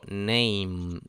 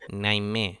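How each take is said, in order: First: The word ends on the m sound. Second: An extra e vowel follows the m. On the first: The speaker calls it right. "yo digo name" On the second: The speaker calls it wrong. "no digo name"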